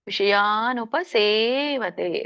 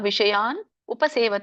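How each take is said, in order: First: The words are run together as one. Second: The words are said as separate words. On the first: "ಕೂಡಿ ಹೇಳಿ" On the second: "ಎರಡು ಪದಗಳಾಗುತ್ತೆ"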